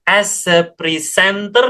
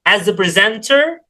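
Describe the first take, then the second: First: The s in 'as' sounds like a hissed s. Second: The s in 'as' sounds like a z. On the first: The speaker calls it wrong. "Jadi bukan as a presenter, nah itu salah" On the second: The speaker calls it right. "S-nya itu pronounce Z"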